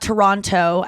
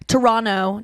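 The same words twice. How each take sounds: First: The second T is clearly pronounced. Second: The second T is dropped. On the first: The speaker calls it wrong. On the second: The speaker calls it right.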